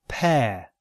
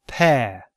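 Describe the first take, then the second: Both takes have the same delivery.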